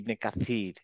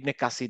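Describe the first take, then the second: First: The middle consonant is a th sound. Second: The middle consonant is an s sound. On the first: The speaker calls it right. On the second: The speaker calls it wrong.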